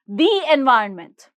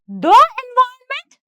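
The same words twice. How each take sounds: First: The article is pronounced 'thee'. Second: The article is pronounced 'thuh'. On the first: The speaker calls it right. "this is the environment" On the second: The speaker calls it wrong. "this is not the environment"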